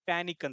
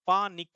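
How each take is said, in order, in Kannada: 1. ಒಂದೇ ಯೂನಿಟ್ ಆಗಿ ಸರಾಗವಾಗಿ ಹೇಳ್ತೀವಿ. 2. pa ಆದ ಮೇಲೆ ಎರಡು ಭಾಗ ಆಗುತ್ತೆ. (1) "ಪ್ಯಾನಿಕ್ ಅಂತಂದ್ ಹೇಳ್ತೀವಿ" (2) "ಪ್ರೊನೌನ್ಸಿಯೇಷನ್ ಹಂಗ ಹಂಗಿಲ್ಲಲ್ಲ"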